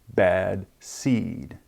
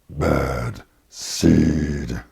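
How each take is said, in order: First: It is said in an ordinary voice. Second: It is said in a deep growling voice.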